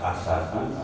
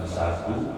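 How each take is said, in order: First: It starts with a vowel, then plain s. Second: It starts directly with a plain s sound. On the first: "bukan asadu" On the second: "bukan sadu"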